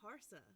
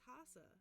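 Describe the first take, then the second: First: The name is said with a hard R sound. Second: The name is said without an R sound. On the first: "The American accent would be Harsa" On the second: "he says Hasa"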